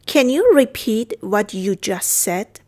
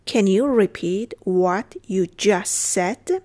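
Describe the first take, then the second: First: Said in the usual way. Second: Slow, word by word for learners; careful, slow language-lesson delivery; slow model repeat. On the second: Shown as a demonstration. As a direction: spell out each word at a teaching pace. Teacher repeats phrase slowly.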